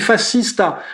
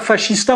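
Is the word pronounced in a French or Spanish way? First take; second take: Spanish; French. First: It is pronounced in a Spanish way. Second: It is pronounced in a French way. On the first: The speaker calls it right. "on dit fascista. J'apprenais à prononcer à l'espagnol" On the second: The speaker calls it wrong. "on dit pas fascista"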